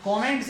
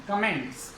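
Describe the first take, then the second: First: कमेंट्स said with a full O, "KO-ments"; wrong pronunciation. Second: कमेंट्स with a short schwa, "kuh-MENTS"; correct pronunciation. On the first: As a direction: give कमेंट्स an open o in the first syllable. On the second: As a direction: reduce the first vowel of कमेंट्स to "kuh". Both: Shown as a demonstration. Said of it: "कमेंट्स नहीं".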